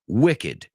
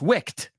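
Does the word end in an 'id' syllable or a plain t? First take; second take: id syllable; plain t. First: The word ends in an 'id' syllable. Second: The word ends in a plain t sound. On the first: The speaker calls it right. "This one is wicked" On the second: The speaker calls it wrong. "no es wicked ... tendría que pronunciar eso como una T"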